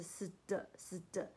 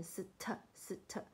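First: 死的 with a soft d-like t after the s; correct unaspirated ST. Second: 死特 with a puffed t after the s; wrong aspirated ST. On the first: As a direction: say 死的 with no puff on the t. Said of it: "它是死的". (死的，t 念成不送气的"的") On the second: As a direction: say 死特 with an aspirated t sound. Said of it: "不要念成死特". (死特，t 念成送气的"特") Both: Shown as a demonstration.

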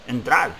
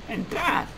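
First: Said in the usual way. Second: Put-on high, thin voice of a frail old man. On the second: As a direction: lightly play a very old innkeeper. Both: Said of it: "voz de anciano".

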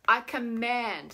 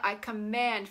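First: Slow, firm and loud; commanding. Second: Said in the usual way. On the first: Shown as a demonstration. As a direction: declare it with full authority. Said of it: "so say it like that". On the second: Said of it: "feel it in the body".

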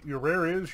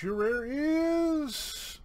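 First: Said in the usual way. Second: High, very drawn-out IS; suspenseful reveal. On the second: Real, not acted. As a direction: hold IS long and high like a drumroll.

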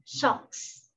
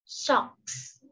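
First: Socks whispered; whispered model word. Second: Socks whispered again; whispered repeat. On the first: (thì thầm chữ socks) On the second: (thì thầm lặp lại Socks) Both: Shown as a demonstration. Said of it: "Những chiếc tất chúng ta đọc là".

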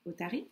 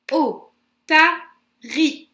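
First: Said in the usual way. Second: Otari in three loud, slow beats, O-ta-ri; counting syllables. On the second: Shown as a demonstration. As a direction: punch out O, ta, ri with pauses between. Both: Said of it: "On compte ensemble?".

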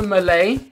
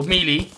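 First: Melee said as "meh-LAY"; first pronunciation of Melee. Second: Melee said as "MEE-lee"; alternative pronunciation of Melee. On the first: Streamer choosing a game class, Melee pronounced "meh-LAY". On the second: Streamer offering what some people call it, Melee pronounced "MEE-lee". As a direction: say Melee with two "ee" sounds. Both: Real, not acted. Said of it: "as some people like to call it".

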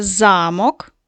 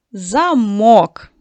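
First: Замок with a drawn-out ЗА-; slow ZA-mok, first syllable stressed. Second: Замок stressed loudly on -МОК; loud za-MOK, final syllable stressed; stress on second syllable. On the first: Teacher solving the castle riddle, замок stressed on за-. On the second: Teacher naming what we lock, замок stressed on -мок. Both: Shown as a demonstration. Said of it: "зміниш ти наголос слова".

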